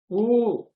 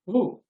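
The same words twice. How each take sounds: First: The vowel is held for two beats. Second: The vowel is held for one short beat. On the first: "this is Dirgha" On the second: "Rekamatra. Matra is this"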